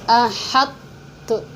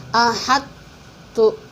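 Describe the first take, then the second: The two takes are said the same way.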